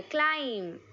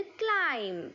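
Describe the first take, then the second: First: ക്ലൈംബ് with the final b said aloud; ക്ലൈംബ് said with the b heard; wrong pronunciation, b sounded. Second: ക്ലൈം with the b left silent, ending on m. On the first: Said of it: "ക്ലൈംബ് എന്ന് വായിക്കരുത്". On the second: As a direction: drop the b, say ക്ലൈം. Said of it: "ബി silent ആണ് കേട്ടോ". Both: Shown as a demonstration.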